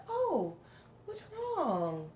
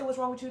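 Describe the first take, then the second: First: High, softened, drawn-out concern; kind and loving. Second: Mildly accusing retold question; unkind. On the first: Shown as a demonstration. Vlogger showing how people never ask her, kind and loving. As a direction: demonstrate a tender, caring way of asking. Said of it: "like, a kind and loving way". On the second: Vlogger quoting people who ask what's wrong, unkind. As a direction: ask it without any kindness, a touch higher. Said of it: "don't never say it in, like, a kind and loving way".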